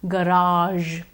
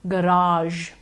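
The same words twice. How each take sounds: The two takes are said the same way.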